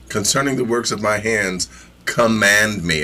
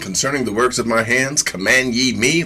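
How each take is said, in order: First: It is said as a firm command. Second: It is said as a rhetorical question.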